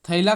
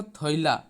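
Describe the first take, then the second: First: Said in the usual way. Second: थैला said as "थोइला", o-i in place of ai; थैला as thoila; Panchpargania pronunciation. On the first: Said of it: "को थैला इस तरह से हम लोग बोलते हैं". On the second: Shown as a demonstration. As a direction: round the vowel of थैला into an "oi" glide. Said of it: "इस तरह से हम लोग बोलते हैं".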